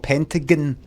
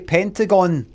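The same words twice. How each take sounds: First: The last syllable sounds like 'gun'. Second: The last syllable sounds like 'gone'. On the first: "or gin?" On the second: "G O N E pronunciation"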